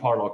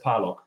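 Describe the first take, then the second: First: The name is said with an English pronunciation. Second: The name is said with a German pronunciation. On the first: "And so in English, I'm Parlog" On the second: "So my family says Parlog"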